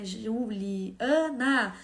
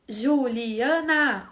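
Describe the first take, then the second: First: Juliana slowed right down, each syllable felt in the mouth. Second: Juliana split slowly into syllables, Ju-li-a-na; clapped syllables. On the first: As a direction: let the child feel every syllable of Juliana. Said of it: "a Magda Soares fala na criança sentir mesmo aqui". (Juliana bem lenta, sentindo cada sílaba na boca) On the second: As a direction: clap out each syllable of Juliana. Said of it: "Bater palma". (Juliana separada em sílabas, bem devagar) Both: Shown as a demonstration.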